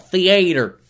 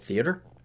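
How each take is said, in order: First: The word is said with a drawn-out southern accent. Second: The word is said in a plain, neutral accent. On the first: "because he's got the southern drawl" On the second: "us normal people just call it theater"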